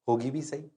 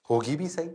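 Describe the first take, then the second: No difference in how they are said.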